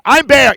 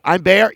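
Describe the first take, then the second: First: Louder, emphatic I'm; insistent puppet. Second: Said in the usual way. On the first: Acted. Puppet Bear insisting to Big Joe, louder.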